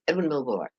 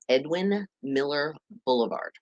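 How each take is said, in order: First: The name is crammed together and said very fast. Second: The name is said at an ordinary, unhurried pace.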